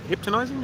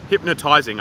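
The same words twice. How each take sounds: First: Hypnotizing garbled as "hip-tuh-nizing", pitched high; mispronounced word. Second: Said in the usual way. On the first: Real, not acted. Streamer doubting his own word, mispronounced hypnotizing. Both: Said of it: "put the emphasis on the wrong syllable".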